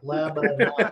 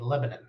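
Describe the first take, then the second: First: The word is sounded out carefully, syllable by syllable. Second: The word is said in a clipped, casual way. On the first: This is how outsiders read it from the spelling. "like the Hooked on Phonics thing, spelled it out like Lebanon" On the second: This is how locals say it. "Say that with me, Lebanon. I actually pronounce that"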